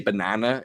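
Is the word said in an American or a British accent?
American. The word is said with an American accent. "I will never say banana"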